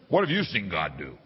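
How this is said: It is asked in an angry, aggressive tone.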